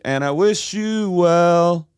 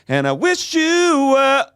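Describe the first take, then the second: First: It is said flatly, without emotion. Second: It is said with heavy, emo emotion.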